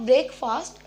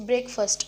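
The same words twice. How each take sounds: First: "breakfast" as BRAKE-faast; mispronounced breakfast. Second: "breakfast" as BREK-fust; corrected pronunciation. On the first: Teacher showing the mistake, breakfast said as brake-FAAST. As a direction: say "breakfast" wrongly with a full long "fast". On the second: Teacher correcting the word, breakfast said as BREK-fust. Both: Shown as a demonstration. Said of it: "it's not breakfast".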